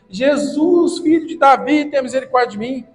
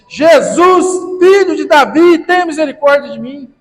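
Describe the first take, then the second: First: It is said at a normal speaking volume. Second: It is shouted at full lung power.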